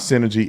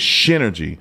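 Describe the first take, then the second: First: The word begins with an s sound. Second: The word begins with an sh sound. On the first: The speaker calls it wrong. "It's not synergy" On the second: The speaker calls it right. "it's Synergy. Because the Shin"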